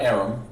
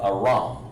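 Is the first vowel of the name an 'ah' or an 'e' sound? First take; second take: e; ah. First: The first vowel is an 'e' sound. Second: The first vowel is an open 'ah' sound. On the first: The speaker calls it wrong. "Not Aram" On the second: The speaker calls it right. "but Aram ... it's Ah, like this"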